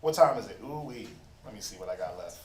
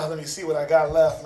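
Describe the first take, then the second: First: Much lower and softer, thrown away under his breath; preacher checks his notes, muttering under his breath; muttered to himself. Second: Said in the usual way. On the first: Real, not acted. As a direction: mumble it to yourself while checking your notes.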